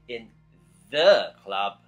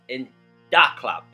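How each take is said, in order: First: The word 'the' begins with a th sound. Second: The word 'the' begins with a d sound. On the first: "He didn't say in the club" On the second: "it was in Da Club"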